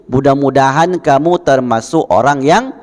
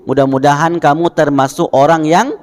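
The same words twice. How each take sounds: The two takes are said the same way.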